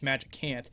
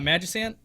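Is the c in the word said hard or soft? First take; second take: hard; soft. First: The c is said as a hard k sound. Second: The c is said as a soft sound. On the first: "it has a hard C" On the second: "like that's how I say it"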